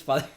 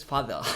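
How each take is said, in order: First: Said in the usual way. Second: Attempted British "father", R dropped; British accent. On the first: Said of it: "which is father". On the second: Shown as a demonstration. Actor insisting it is in Harry Potter, British accent. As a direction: say "father" like an amateur British impression. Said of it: "a part where somebody says father".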